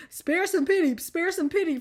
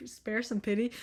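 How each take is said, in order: First: Mock plea. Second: Said in the usual way. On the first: Shown as a demonstration. Redoing phrase in mock plea. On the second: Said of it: "sp-, spare some pity".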